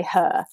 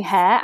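First: "her" as the northern way of saying hair; hometown pronunciation. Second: Said in the usual way. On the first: Shown as a demonstration. Guest shows host her family accent, "her" for hair. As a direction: hair rhymed with fur, said "her". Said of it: "I'd say her". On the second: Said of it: "instead of saying hair".

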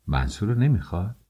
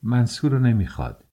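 First: "منصور رو نمیخواد" as a quick, incredulous question; disbelieving question. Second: "منصور رو نمیخواد" as a firm, falling statement; higher-pitched "منصور رو نمیخواد", closing on a fall. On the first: Mother who still won't believe it, disbelieving question. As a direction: echo "منصور رو نمیخواد" fast, left open as a question. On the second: Daughter telling mother she refuses the match, plain falling statement. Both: A narrator's reading.

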